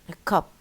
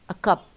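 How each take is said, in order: No difference in how they are said.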